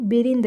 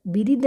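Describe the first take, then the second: First: बिरिंद with a light nasal n before द; slightly nasal pronunciation. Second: बिरिद with no nasal before the द; wrong pronunciation demo. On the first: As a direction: let a little nose into बिरिंद. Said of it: "थोड़ा सा नाक का use करना पड़ेगा". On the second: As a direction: leave the n out of बिरिद. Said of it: "बिरिद नहीं". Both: Shown as a demonstration.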